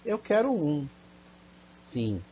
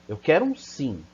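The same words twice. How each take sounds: First: There is a pause before the final word. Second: The phrase runs on without a pause. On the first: The speaker accepts the one being offered. "Você quer uma? Eu quero um, sim" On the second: The speaker wants a yes and won't accept a no. "Diferente da pessoa perguntar, eu quero um sim, né? Ela não aceita não"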